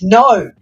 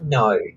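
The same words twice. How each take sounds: First: It is said with strong, emphatic force. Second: It is said flatly, without force.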